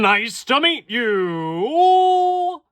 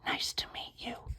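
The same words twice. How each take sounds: First: It is said loudly, shouted. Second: It is said quietly.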